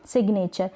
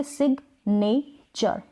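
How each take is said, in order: First: Said in the usual way. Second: "सिग्नेचर" slowly in three parts; syllable by syllable. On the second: Shown as a demonstration. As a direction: break "सिग्नेचर" into sig, ne, cher. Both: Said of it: "इसके तीन parts किए".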